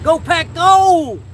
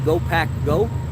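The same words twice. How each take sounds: First: It is said loudly. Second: It is said at normal volume.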